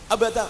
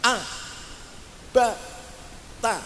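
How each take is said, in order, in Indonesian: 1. Suku katanya disambung sangat cepat. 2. Suku katanya dipisahkan oleh jeda yang panjang. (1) "tidak boleh terlalu cepat" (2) "terlalu lamban, artinya ada jeda"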